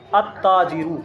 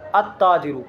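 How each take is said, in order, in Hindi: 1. L खामोश रहता है और T दोहरा बोला जाता है। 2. L खामोश रहता है और T दोहरा बोला जाता है।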